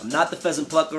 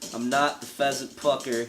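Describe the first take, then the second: First: It is said fast, at double speed. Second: It is said at a normal speed.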